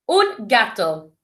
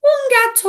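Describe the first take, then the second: First: Said in the usual way. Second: Very high, squeaky silly voice; silly cat voice. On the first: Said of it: "A cat". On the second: Shown as a demonstration. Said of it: "the silly voices that we do".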